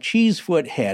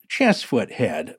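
First: The first vowel is long, like cheese. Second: The first vowel is short, like chess. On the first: The speaker calls it wrong. "I said that incorrectly" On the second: The speaker calls it right. "actually pronounced Chessfoot Head by true locals"

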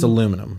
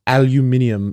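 First: The word is said with four syllables. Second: The word is said with five syllables. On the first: The speaker calls it right. "It's aluminum" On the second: The speaker calls it wrong. "when people are like, aluminium"

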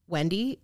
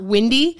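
First: The first vowel sounds like the one in pen. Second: The first vowel sounds like the one in pin. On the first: The speaker calls it right. "I say Wendy, like a normal person" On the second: The speaker calls it wrong. "not Windy"

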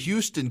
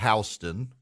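First: The name is said the usual way. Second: The name is said the Georgia way. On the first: "there's a Houston County" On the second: "but it's called Houston"

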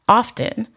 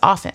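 First: The T sound is pronounced. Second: The T sound is silent. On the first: The speaker calls it wrong. "But people will say often, you know, or put stick T's where they don't belong" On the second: The speaker calls it right. "the T is silent. The word is often. Like that's the proper pronunciation"

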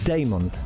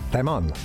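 First: The name is said in an English-sounding way. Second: The name is said in a Spanish-sounding way. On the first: The speaker calls it right. "that's possibly the way I say it" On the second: The speaker calls it wrong. "if it's Damon, it sounds like it's Spanish"

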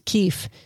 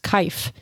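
First: The vowel sounds like 'ee'. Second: The vowel sounds like 'eye'. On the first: The speaker calls it right. "I've realized it was keef" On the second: The speaker calls it wrong. "I thought keef was kaif"

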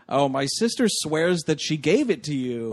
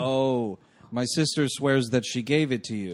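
First: It is said with lively, expressive inflection. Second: It is said flatly, without inflection.

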